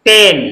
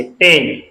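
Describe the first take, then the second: First: Said in the usual way. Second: "पेन" said with a short e vowel, clearly; pen with short e. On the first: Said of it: "एक मात्रा से". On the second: Shown as a demonstration. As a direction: sound out "पेन" with one short e matra, lower. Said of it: "एक मात्रा से, पेन, इस तरह से". ("पेन" को एक मात्रा की छोटी ए से बोलें)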